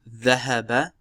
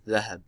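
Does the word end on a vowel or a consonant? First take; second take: vowel; consonant. First: The word ends with a final vowel sound. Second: The word stops on the final consonant. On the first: The speaker calls it right. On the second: The speaker calls it wrong.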